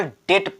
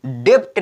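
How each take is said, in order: First: डेट with only the t at the end; silent B. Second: डेप्ट with a p/b before the t; B sounded. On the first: Teacher showing the right reading, silent b in डेट. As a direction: drop the b, say डेट. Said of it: "इसको केवल डेट पढ़ेंगे". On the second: Teacher showing the misreading, b sounded in डेप्ट. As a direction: sound the middle consonant in डेप्ट. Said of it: "इसको डेप्ट नहीं पढ़ेंगे". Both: Shown as a demonstration.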